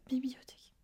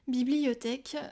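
First: The word is pronounced in a slurred, garbled way. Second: The word is pronounced clearly with every syllable. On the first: The speaker calls it wrong. "moi j'ai dit ça comme ça" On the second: The speaker calls it right. "c'est beau"

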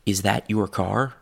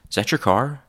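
First: Every word is said fully and separately. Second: The words blur together into zatcher car. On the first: "first with book pronunciation" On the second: "then chewing gum"

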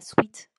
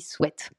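First: The vowel sounds like 'ee', as in sweet. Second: The vowel sounds like 'eh', as in bet. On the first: The speaker calls it wrong. "on ne dit pas sweat" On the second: The speaker calls it right. "on dit sweat, du verbe to sweat en anglais"

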